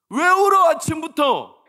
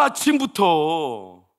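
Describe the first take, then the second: First: 아침부터 thrown out high and loud, falling at the end; irritated yelling. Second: 아침부터 stretched out very slowly, loud but at normal pitch; drawn-out scolding. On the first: Father yelling at crying daughter, high loud 아침부터. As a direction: bark 아침부터 high and fast like a fed-up dad. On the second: Father scolding daughter for crying, slow drawn-out 아침부터. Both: Retold or imitated. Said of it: "나도 막 짜증이 나가지고".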